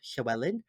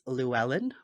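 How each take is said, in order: First: The name begins with a hissed, breathy L sound. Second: The name begins with a plain L sound. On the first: "in Welsh culture, we say it's" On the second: "the way that most um, Americans say"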